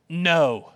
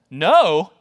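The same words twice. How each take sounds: First: Said in the usual way. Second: Louder, questioning echo of NO; incredulous. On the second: Acted. Preacher reacts to Paul's answer, incredulous. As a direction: throw NO back as a disbelieving question.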